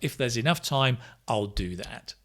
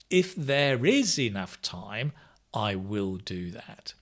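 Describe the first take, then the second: First: The verbs are contracted into shortened forms. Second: The verbs are said in full, uncontracted.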